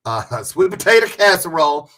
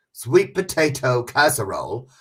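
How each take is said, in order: First: Sweet potato casserole drawled, louder and laughing; laughing country twang. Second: Said in the usual way. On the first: Shown as a demonstration. Laughing as she repeats it country style for viewers. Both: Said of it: "You hear how country I got?".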